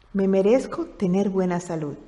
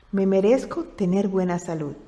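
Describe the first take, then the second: The two takes are said the same way.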